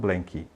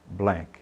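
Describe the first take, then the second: First: An extra vowel follows the final k. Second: The word ends cleanly on the k. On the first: The speaker calls it wrong. "não blanky" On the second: The speaker calls it right. "você vai falar blank"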